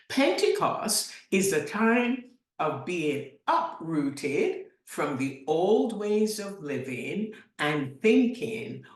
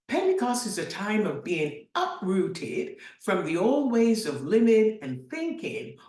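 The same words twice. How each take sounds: First: It is spoken slowly and deliberately. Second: It is spoken at a normal speaking pace.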